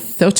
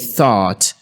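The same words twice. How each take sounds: First: The word is short and lightly emphasized. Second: The word is long and strongly emphasized. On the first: "the word is relatively shorter in pronouncing that word within a structure of a sentence" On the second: "it's a little bit longer and emphasized more when it's enunciated independently"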